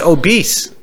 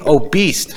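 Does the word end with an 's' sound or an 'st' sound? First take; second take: s; st. First: It ends with a plain s sound. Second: It ends like the word beast. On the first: The speaker calls it right. "It's obese" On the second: The speaker calls it wrong. "But you're saying obese"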